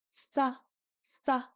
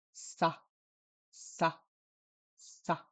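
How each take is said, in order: First: Sa pitched up, English S; high-tone sa. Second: Sa said low and soft. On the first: Teacher demonstrates the high tone row, sa in high tone. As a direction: lift the pitch on sa. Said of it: "we have a high tone row". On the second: Teacher demonstrates the low tone row, sa in low tone. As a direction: drop the pitch on sa. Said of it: "here's our low tone row". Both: Shown as a demonstration.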